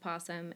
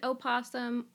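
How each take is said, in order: First: The word starts directly with the 'p' sound. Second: The word starts with a vowel before 'p'. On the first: "or you can pronounce it possum" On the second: "You can pronounce it opossum"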